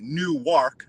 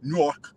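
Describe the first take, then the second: First: Newark said as spelled, New-ark in two clear parts. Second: Newark squeezed into one syllable, Nork; local Newark. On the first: Explaining how outsiders read Newark, spelled out. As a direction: read Newark off the sign, syllable by syllable. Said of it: "like you would say it if you were reading it". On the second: Correcting Stiggs on the local Newark, Nork. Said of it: "they say it Newark". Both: Shown as a demonstration.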